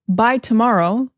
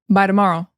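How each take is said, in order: First: The t in tomorrow is a clear t. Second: The t in tomorrow sounds like a d. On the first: The speaker calls it wrong. "instead of by tomorrow" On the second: The speaker calls it right. "the T is really like a D"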